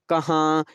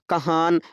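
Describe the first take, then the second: First: The ending is a nasal vowel without n. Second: The ending has a fully pronounced n sound. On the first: The speaker calls it right. "जो नून नाक में पढ़ा जाए उसे नून-गुन्ना कहते हैं" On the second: The speaker calls it wrong. "हमने ये नहीं कहा"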